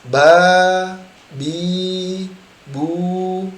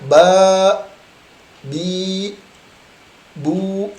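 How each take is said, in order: First: Each vowel is released freely and openly. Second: Each vowel is stopped short and abruptly. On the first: The speaker calls it right. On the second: The speaker calls it wrong. "Tidak boleh mentok"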